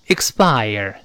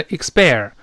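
First: "expire" as "iks-bire", ending in eye-er; correct diphthong. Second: "expire" wrongly as "iks-pair"; wrong vowel. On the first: Teacher correcting the vowel, "expire" ending in "ire". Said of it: "后面是ire这个声音". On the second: Teacher showing another mistake to avoid, "expire" as "iks-pair". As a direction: flatten the end of "expire" into "air". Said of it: "也不要读成". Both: Shown as a demonstration.

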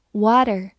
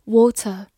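First: Water said the American way with a flapped t, wɔɾər; 美式发音的water; American pronunciation. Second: Said in the usual way. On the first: Shown as a demonstration. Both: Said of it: "美式发音water，".

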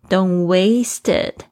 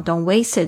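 First: "Don't waste it" very slow, word by word; careful unlinked phrase. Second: "Don't waste it" with "waste it" run together; linked sounds. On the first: Teacher models the phrase, "Don't waste it" slowly and carefully. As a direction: space out "Don't waste it" deliberately. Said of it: "还有后面有一个it可以连音哦". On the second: Teacher demonstrates linking, "waste it" joined as one word. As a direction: slide the t of "waste" straight into "it". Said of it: "可以连音哦". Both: Shown as a demonstration.

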